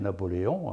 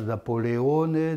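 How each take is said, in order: First: The name ends without an added final vowel. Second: The name ends with an added final vowel. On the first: This is how the local speakers say it. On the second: This is the form used outside the local speech.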